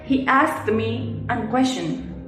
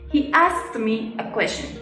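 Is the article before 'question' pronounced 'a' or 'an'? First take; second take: an; a. First: The article is pronounced as 'an'. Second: The article is pronounced as a plain 'a'. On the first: The speaker calls it wrong. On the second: The speaker calls it right.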